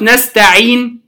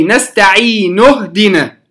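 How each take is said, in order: First: نستعين ended on a silent نون, the ي stretched; stopping with sukun. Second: نستعين اهدنا joined, the ي held two counts; natural madd in connection. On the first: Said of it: "فلما سكنت النون". (الوقف على نستعين بتسكين النون) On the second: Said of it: "الأصل أنه مد طبيعي". (وصل نستعين اهدنا بمد طبيعي) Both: Shown as a demonstration.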